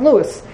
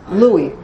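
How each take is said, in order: First: The name is said with American pronunciation. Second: The name is said with French pronunciation. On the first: "In America, there's a city called St. Louis" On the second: "now in French you pronounce it Louis"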